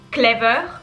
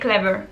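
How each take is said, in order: First: The R is pronounced strongly and pressed. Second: The R is soft and barely pronounced. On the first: The speaker calls it wrong. "C'est pas clever" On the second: The speaker calls it right. "mais c'est clever. On prononce pas vraiment le R"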